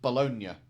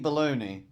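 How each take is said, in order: First: The word ends with a 'nya' sound. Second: The word ends with an 'ee' sound. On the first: "how it's supposed to be pronounced" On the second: "you wouldn't mean it that way because you're American"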